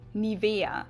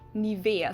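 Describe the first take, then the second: No difference in how they are said.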